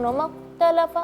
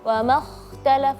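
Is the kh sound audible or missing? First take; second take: missing; audible. First: The kh sound is not heard. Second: The kh sound is clearly heard. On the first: The speaker calls it wrong. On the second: The speaker calls it right.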